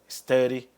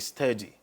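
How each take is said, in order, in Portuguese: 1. É falada com sotaque americano. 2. É falada com sotaque britânico.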